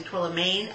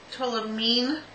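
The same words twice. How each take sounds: First: "tourmaline" mispronounced torla-MAYNE; tourmaline ending in "mayne". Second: "tourmaline" pronounced torla-MEEN; tourmaline ending in "meen". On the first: Shown as a demonstration. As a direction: say "tourmaline" with last syllable like "main". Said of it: "I know that's wrong". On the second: Real, not acted. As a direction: say "tourmaline" with a long ee in the last syllable. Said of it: "I always say it wrong".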